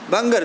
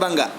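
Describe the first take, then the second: First: The word ends with an r sound. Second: The word ends without an r sound. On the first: The speaker calls it right. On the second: The speaker calls it wrong.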